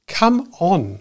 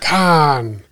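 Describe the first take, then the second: First: It is said in full as two syllables. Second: It is squeezed into one short syllable. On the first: "what's it short for?" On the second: "the word C-A-R-N"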